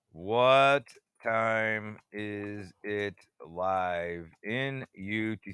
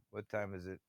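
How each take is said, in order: First: Very slow, lower, stretched question; slowly muttered to himself; drawn-out musing. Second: Said in the usual way. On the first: Real, not acted. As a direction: drag each word out while thinking. Asks the time twice, drawn out.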